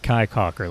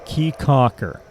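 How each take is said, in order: First: The first word sounds like 'kai'. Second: The first word sounds like 'key'. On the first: The speaker calls it wrong. "not Kai Caulker like I was pronouncing it before" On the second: The speaker calls it right. "it's it's Key Caulker"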